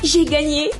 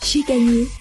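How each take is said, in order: First: It sounds very excited and energetic. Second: It sounds surprised and astonished. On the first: "en étant super excité" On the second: "en étant surpris"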